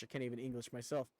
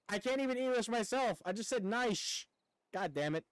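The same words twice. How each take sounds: First: Rushed mumble. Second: Higher and louder, laughing at himself; frustrated self-mocking outburst, pitched up; exasperated. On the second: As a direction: repeat the slip with exasperated amusement. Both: Real, not acted.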